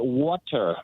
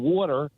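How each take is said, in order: First: The middle T is pronounced clearly and crisply. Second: The middle T is softened in a regional accent. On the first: The speaker calls it right. "I had to start pronouncing T's" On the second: The speaker calls it wrong. "ring your accent out. So instead of me saying water"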